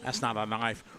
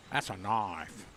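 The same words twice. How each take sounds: First: Put-on a lightly done Australian accent, dismissive stress on "not"; Crocodile Dundee quote. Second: Put-on lower, softer Australian-accented "That's a knife", weight on "That's"; a light Australian accent, proud punch on "That's"; Crocodile Dundee quote. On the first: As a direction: lower Australian-accented "That's not a knife", leaning on "not". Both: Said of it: "Okay, Crocodile Dundee".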